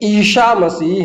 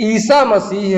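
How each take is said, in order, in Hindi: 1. पहला शब्द sh की आवाज़ से बोला जाता है। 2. पहला शब्द सादे s की आवाज़ से बोला जाता है। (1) "ईशा मसीह नहीं है, तालव्य सा लगा दें" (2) "ईसा मसीह है, दंत सा का प्रयोग किया गया है"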